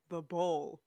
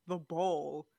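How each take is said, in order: The two takes are said the same way.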